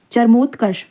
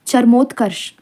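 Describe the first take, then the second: No difference in how they are said.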